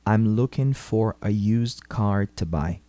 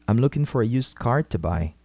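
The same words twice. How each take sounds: First: It is said slowly and carefully. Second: It is said at normal speed.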